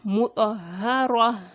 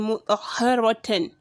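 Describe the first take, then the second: First: The word ends on a vowel with released air. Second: The word ends with an added -tan syllable. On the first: The speaker calls it right. "but mutahhara" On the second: The speaker calls it wrong. "here you wouldn't say mutahharatan"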